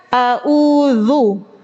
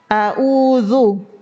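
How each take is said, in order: Both takes have the same delivery.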